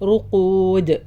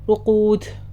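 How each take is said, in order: First: The final D bounces cleanly without any air. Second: The final D is released with a puff of air. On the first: The speaker calls it right. "ഒരിക്കലും കാറ്റ് കൊണ്ടുവരരുത്" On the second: The speaker calls it wrong. "ചില ആൾ കൽക്കല കാറ്റോടും കൂടിയിട്ട് റുഖൂദ് എന്നിട്ട് അങ്ങനെ നിർത്തും"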